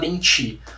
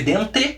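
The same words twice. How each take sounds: First: The word ends in an i sound. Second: The word ends in an e sound. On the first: This is how people actually say it. "a gente fala dente" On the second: This is how it is written. "Se escreve dente"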